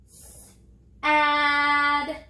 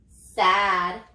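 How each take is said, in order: First: "Sad" broken into drawn-out separate sounds; sounded out. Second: Said in the usual way. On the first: Shown as a demonstration. Teacher has children touch and say each letter, "Sad" sounded out slowly. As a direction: stretch "Sad" sound by sound, a gap after the s. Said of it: "Touch and say". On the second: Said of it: "What's the word?".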